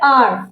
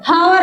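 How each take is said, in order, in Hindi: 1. शब्द की शुरुआत सीधे स्वर से होती है। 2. शब्द की शुरुआत h ध्वनि से होती है। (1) "हम इसको बोलते हैं आर" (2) "हावर नहीं बोलते हम इसको"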